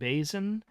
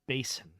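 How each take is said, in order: First: The S in the middle is voiced. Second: The S in the middle is unvoiced. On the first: This is how the speaker says it. "I pronounce it with a, a voiced S" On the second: This is how someone else says it. "with a silent S sound, an unvoiced S sound"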